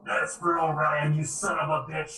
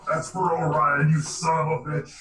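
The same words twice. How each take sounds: First: Half-landed character voice; botched character voice. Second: Louder in-character battle cry; punchy retake in a character voice; Starscream. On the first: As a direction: deliver the battle line in a slightly off voice. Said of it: "That was a voice I messed up". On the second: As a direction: throw it out as a cartoon villain's vengeful taunt. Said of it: "It actually sounded like Starscream from Transformers". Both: Acted.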